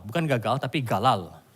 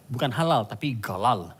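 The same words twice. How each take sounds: First: "galal" with a clear l in the middle, not "gagal". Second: "galal" starting with a hard g, not the h of "halal". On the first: Pastor teaching the congregation the Hebrew word, saying "galal" with l. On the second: Pastor correcting the pronunciation, "galal" begins with g not h. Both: Shown as a demonstration. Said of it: "Katakan galal".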